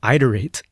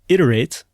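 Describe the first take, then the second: First: It begins with a long 'eye' vowel sound. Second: It begins with a short 'ih' vowel sound. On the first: The speaker calls it wrong. "I pronounced it iterate with a long I in the beginning" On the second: The speaker calls it right. "it is pronounced iterate with a short I"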